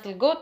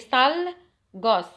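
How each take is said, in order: First: It is run together as one word, 'salgut'. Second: It is said as two words, 'sal gos'. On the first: This is the form that reached everyday speech. "توصلت لنا سلقوط" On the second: This is the original form of the word. "اصل ديال هاد الكلمه"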